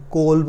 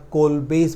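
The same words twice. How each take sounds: First: कोल्ब said as "kolb", with no final s; others' pronunciation. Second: कोल्बेस said as "kol-bays", ending in an s; alternative name pronunciation. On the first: Teacher showing students how many people say the name, pronunciation demo. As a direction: say कोल्ब short, closing on the b. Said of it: "कई लोग कोल्ब बोलते हैं". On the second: Teacher showing students one way to say the reaction's name, pronunciation demo. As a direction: say कोल्बेस with a long "bays" second syllable. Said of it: "कोल्बेस बोलते हैं". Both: Shown as a demonstration.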